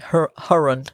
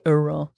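First: The name starts with an H sound. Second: The name starts with no H sound. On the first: "Americans would say Huron" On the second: "so we say Huron"

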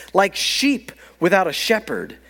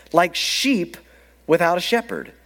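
Both takes have the same delivery.

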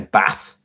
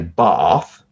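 First: It is said the northern English way. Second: It is said the southern English way. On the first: "or even further north, they say bath" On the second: "Southern people say bath"

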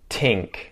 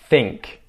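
First: The word begins with a t sound. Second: The word begins with a th sound. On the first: "and then a T sound" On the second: "pronounce with a TH"

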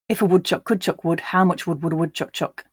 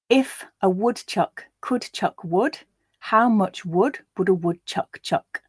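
First: The vowels in 'wood' and 'chuck' sound the same. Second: The vowels in 'wood' and 'chuck' sound different. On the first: "in a more Northern English accent where I don't use that sound" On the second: "I am reading this with the sound, so you do hear the contrast"

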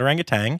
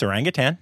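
First: The word ends with an added g sound. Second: The word ends with a plain n sound. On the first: The speaker calls it wrong. "not orangutan ... if one G slips in there" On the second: The speaker calls it right. "it's orangutan"

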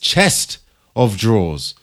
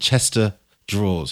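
First: 'Chest' and 'of' are said as separate words. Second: 'Chest of' merges into one word, 'Chester'. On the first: The speaker calls it right. "It's Chest of Draws" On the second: The speaker calls it wrong. "If you're from London"

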